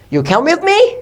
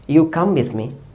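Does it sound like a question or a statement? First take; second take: question; statement. First: It is said with a questioning tune. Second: It is said as a plain statement. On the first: It asks something. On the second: It states a fact.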